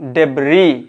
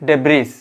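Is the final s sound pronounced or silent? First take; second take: silent; pronounced. First: The final s is not pronounced. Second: The final s is pronounced. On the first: The speaker calls it right. "এস লেটারটা কিন্তু অবশ্যই silence থাকবে" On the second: The speaker calls it wrong. "not debris"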